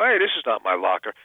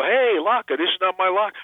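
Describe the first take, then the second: First: Throwaway line. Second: High-pitched fan calling out a catchphrase; imitated fans. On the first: Retold or imitated. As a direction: toss it off casually. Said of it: "It was a little throwaway line". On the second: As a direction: quote it back eagerly, pitched well up. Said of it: "people come over and go".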